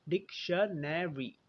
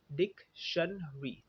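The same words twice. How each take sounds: First: डिक्शनरी slowly as dik, shuh, ne, ree; four slow beats in डिक्शनरी, nothing dropped; four syllables. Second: डिक्शनरी slowly as dik, shun, ree; three syllables. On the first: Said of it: "चार थे". (डिक्शनरी धीरे, चार syllable में: डिक-श-ने-री) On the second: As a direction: spell out shortened डिक्शनरी in three slow beats. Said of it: "तीन syllable बन गए". (डिक्शनरी धीरे, तीन सिलेबल में: डिक-शन-री) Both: Shown as a demonstration.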